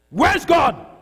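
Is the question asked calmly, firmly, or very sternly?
firmly. It is asked in a strong, firm tone.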